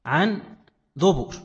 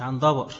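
First: دبر said with damma on both, ʕan duburin; correct duburin. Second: دبر said with open a vowels, dabar, as the common error; mock the students' mistake, دبر as dabar; wrong pronunciation. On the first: Teacher correcting students, دبر as dubur. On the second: Teacher mimicking students' error, دبر as dabar. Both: Shown as a demonstration. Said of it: "بعضهم بينطق دبر خطأ".

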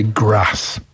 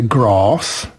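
First: Grass with a short flat a, ɡɹæs; northern grass. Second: Grass with a long back ah, ɡɹɑs; southern grass. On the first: English teacher tells a Polish host the northern grass. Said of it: "if you're from the north". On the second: English teacher tells a Polish host the southern grass. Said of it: "If you're from the south". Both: Shown as a demonstration.

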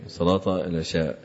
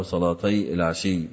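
First: "العشاء" with an open sh and long final aa; open, lengthened ending. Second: "العشي" with i after sh and doubled y; kasra and doubling. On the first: Teacher gives the majority reading, "العشاء" ending in long aa. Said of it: "كذا هنا بالفتح والمد للجميع". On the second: Teacher gives the variant reading, "العشي" ending in doubled y. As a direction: say "العشي" as al-ashiyy, not al-ishaa. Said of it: "بالكسر والتشديد لهم إلا الكشمهني". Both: Shown as a demonstration.

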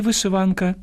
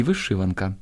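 First: Вишиванка stressed on -ВАН-; first stress variant. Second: Вишиванка stressed on -ШИ-; second stress variant. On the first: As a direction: hit the third syllable of вишиванка. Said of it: "Хоча можна казати і". (наголос на третьому складі: вишиванка) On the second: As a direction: hit the second syllable of вишиванка. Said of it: "можна казати і вишиванка". (наголос на другому складі: вишиванка) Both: Shown as a demonstration.

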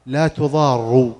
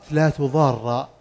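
First: "لا تضار" slow, ending in damma, tuḍārru; reading with tuḍārru. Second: "لا تضار" ending in fatha, tuḍārra; reading with tuḍārra. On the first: Teacher demonstrating the nafiya reading, slow with final u. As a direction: stretch "لا تضار" slowly with a final u. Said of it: "وفي قراءة". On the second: Teacher demonstrating the nahiya reading, final a. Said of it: "قراءة". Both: Shown as a demonstration.

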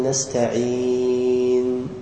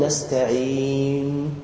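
First: نستعين slow and soft, lips rounding right after the نون; correct ishmam. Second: نستعين slow, lips rounded late after a pause, as a mistake; wrong ishmam. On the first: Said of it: "بل نقول". (نطق صحيح لنستعين مع إشمام مباشر بعد السكون) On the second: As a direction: show the wrong way: separate the lip rounding from the نون. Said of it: "هذا خطأ". (نطق خاطئ لنستعين بفصل الإشمام عن السكون) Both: Shown as a demonstration.

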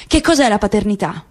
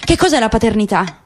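No difference in how they are said.

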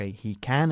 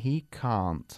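First: "he can" with a short flat A; short British can. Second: "can't" with the long open A like "coche"; British can't. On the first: Teacher contrasts "he can" with "he can't" for students. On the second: Teacher contrasts "he can't" with "he can" for students. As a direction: open "can't" wide like "car". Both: Shown as a demonstration. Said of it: "Ca como, como coche".

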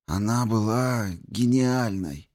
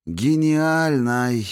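First: High, slow, breaking with grief. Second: The word breaks into a sob; breaking cry. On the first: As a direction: grief cracks the voice. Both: A narrator's reading. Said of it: "Голос Дарио сорвался".

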